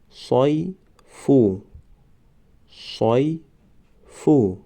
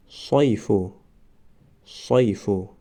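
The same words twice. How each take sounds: First: صیفو stretched very slowly, syllable by syllable; drawn-out demo. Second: Said in the usual way. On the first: Shown as a demonstration. Teacher modelling the word for students, very slow. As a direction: draw out صیفو slowly for the class. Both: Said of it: "ما باید همان حرف را فقط آوازش را تلفظ کنیم".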